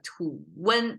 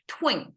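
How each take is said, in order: First: It is two syllables with a vowel after t. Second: It is one syllable starting with a tw cluster. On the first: "become two syllables" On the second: "just mm, it's gone"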